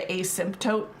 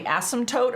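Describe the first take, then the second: First: Asymptote said AY-simp-tote; long-A pronunciation. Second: Asymptote said ASS-im-tote; short-A pronunciation. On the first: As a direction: open asymptote with a long A, as in "day". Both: Shown as a demonstration. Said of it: "I've heard it pronounced both ways".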